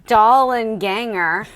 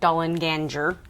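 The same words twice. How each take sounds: First: The middle G is a hard sound. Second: The middle G is a soft sound.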